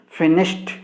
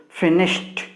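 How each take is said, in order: The two takes are said the same way.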